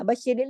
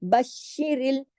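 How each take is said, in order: First: बशिरिल with a quick single श; loose, slack SH. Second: बशिरिल slowly with a held double श; firm doubled SH. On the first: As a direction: slide loosely over श in बशिरिल. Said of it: "ढीला ढाला नहीं पढ़ना". (बशिरिल, ढीला ढाला) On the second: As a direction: lean hard on श in बशिरिल. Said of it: "सख्ती से जोड़ना है". (बशिरिल, सख्ती से जोड़कर) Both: Shown as a demonstration.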